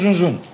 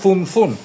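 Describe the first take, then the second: First: The name is said with z sounds. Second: The name is said with th sounds. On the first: This is how people in Greece say it. "εμείς μια ζωή θα τη λέμε Zunzun" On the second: This is the original Spanish name. "Το Z στα ισπανικά είναι το Θ, κανονικά. Η εταιρεία λέγεται Thunthun. Είναι σαν να τσιβδίζεις"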